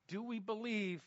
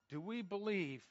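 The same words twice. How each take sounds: The two takes are said the same way.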